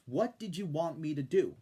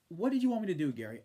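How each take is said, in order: First: "What" punched first, rest falling away; stress on what. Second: "you" hit with the top pitch, rest falling; stress on you. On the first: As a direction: hit "What" like a demand. Repeats challenge after "answer me this. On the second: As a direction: lean hard on "you" as if pointing at Gary. Exasperated rhetorical challenge to Gary. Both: Real, not acted.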